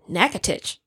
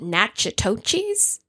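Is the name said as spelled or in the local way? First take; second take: local way; as spelled. First: The name is said in the local way. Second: The name is sounded out as it is spelled. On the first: The speaker calls it right. "it said pronounced Natchitoches" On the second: The speaker calls it wrong. "So I would have said Natchitoches"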